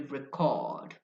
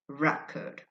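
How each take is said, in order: First: The stress is on the second syllable. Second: The stress is on the first syllable. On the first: It is a verb. "if you stress the second syllable" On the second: It is a noun. "a noun"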